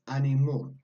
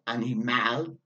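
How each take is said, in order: First: The final vowel is a soft schwa. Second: The final vowel is a full open A. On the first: The speaker calls it right. "Soft. We've got that schwa sound" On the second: The speaker calls it wrong. "as in the German A"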